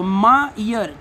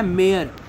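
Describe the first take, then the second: First: "मा ईयर" slowly, as two separate beats; split into syllables. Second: Said in the usual way. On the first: Shown as a demonstration. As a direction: open a gap between the halves of "मा ईयर". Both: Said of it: "अलग करना है".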